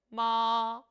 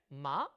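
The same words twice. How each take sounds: First: The pitch stays high and is held long. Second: The pitch rises quickly over a short syllable. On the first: "일성은 높은 음을 길게 빼주죠" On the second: "이성은 짧게 감아쳐 올라갑니다"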